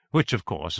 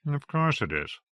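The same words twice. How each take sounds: First: Said in the usual way. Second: Dry, wry inner aside; a wry private thought, said drily. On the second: Acted. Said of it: "thought McAllister".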